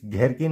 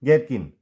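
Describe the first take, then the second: First: घेरकिन with aspirated gh; mispronounced "gherkin" as घेरकिन; wrong, h sounded. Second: घेरकिन said with plain g, as gerkin; correct, silent h. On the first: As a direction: say घेरकिन with a puff after g. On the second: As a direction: say घेरकिन as "gerkin", no puff after g. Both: Shown as a demonstration. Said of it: "नहीं".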